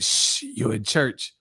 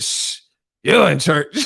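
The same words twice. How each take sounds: First: Soft, slow shushing; church lady. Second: Mocking echo. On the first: Retold or imitated. Church lady shushing [name], soft and slow. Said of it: "That the girl at the church". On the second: [name] mocking the church lady's shush, mimicking. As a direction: parrot her words back in mild mockery. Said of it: "he would mock the people's voices".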